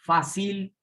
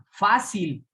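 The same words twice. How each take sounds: First: Fácil said oddly as fa-CÍL; como palabra aguda. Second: Fácil slow, stressed FÁ-cil; como palabra grave. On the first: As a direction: shift the stress of Fácil to the last syllable. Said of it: "suena raro". (Fácil como facíl, con fuerza en CIL) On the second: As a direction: stretch and hit the first syllable FA of fácil. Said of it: "lleva su tónica en la penúltima". (fácil lento, con fuerza en FÁ) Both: Shown as a demonstration.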